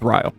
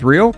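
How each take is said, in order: First: It is said the local Wisconsin way. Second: It is said the common worldwide way. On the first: This is how the name is said in Wisconsin. "In Wisconsin, it's Rio" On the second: This is how most of the world says it. "in the entire world is Rio"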